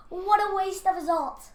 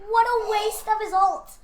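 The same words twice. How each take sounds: First: Said in the usual way. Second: Excited. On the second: Real, not acted. Repeated exclamation.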